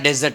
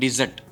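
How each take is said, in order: First: The first vowel sounds like 'e' in 'bed'. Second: The first vowel sounds like 'i' in 'bit'. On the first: It names a sandy wasteland. "ડેઝર્ટ એટલે રણ" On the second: To abandon something. "જો ડિઝર્ટ બોલો"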